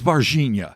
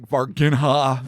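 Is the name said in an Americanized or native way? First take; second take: native; Americanized. First: The name is said with its native pronunciation. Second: The name is said with an Americanized pronunciation. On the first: The speaker calls it right. "It is Varginha" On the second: The speaker calls it wrong. "We want to totally American it up"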